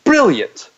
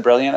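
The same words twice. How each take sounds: First: High, mock British "Brilliant". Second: Said in the usual way. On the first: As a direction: imitate a posh beer ad saying "Brilliant". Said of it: "they'd be like, "Brilliant". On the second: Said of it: "And they said".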